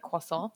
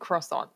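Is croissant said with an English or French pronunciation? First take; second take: French; English. First: The word is said with French pronunciation. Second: The word is said with English pronunciation. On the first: This is how it is said in France. "when I was in France, I did call it a croissant" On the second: This is how it is said at home. "When I'm here at my local Starbucks, it's a croissant"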